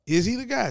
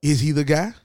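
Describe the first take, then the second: First: "guy" high and falling; emphatic repeat. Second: Said in the usual way. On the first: Real, not acted. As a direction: lift "guy" up then drop it. Repeated much higher.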